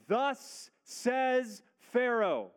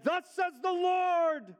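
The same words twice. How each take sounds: First: "Thus says Pharaoh" drawn out slowly and higher, every word weighed; solemn slow proclamation. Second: "Thus says the Lord" announced much higher and louder, slowly, full of gusto; bold Moses. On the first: Shown as a demonstration. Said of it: "notice the words that it begins with". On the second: Retold or imitated. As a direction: Moses bursting into the court, proclaiming boldly. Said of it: "he came in all bold and full of gusto".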